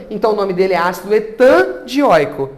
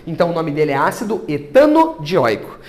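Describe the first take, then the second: First: "etandioico" said without the o, wrong form; the ugly name "etandioico", squeezed together. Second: "etanodioico" with the added o clearly sounded; the proper name "etanodioico", o in the middle; correct name. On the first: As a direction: run "etandioico" together with no linking vowel. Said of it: "não ficou bonito isso". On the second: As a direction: put the little o in: "etanodioico". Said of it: "O que que ela pede pra gente fazer aqui? Colocar um ozinho". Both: Shown as a demonstration.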